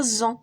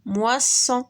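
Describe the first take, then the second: First: "moisson" with a buzzing Z in place of S; single-S pronunciation. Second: "Moisson" with a hissing S in the middle; double-S pronunciation. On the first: Teacher shows pupils the word with one S, "moisson" pronounced with Z. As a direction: say "moisson" as mwa-ZON, voiced Z. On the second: Teacher gives pupils the correct reading, "Moisson" pronounced with S. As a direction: say "Moisson" as mwa-SON, unvoiced S. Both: Shown as a demonstration. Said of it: "كان درنا غير وحدة غنقراوها".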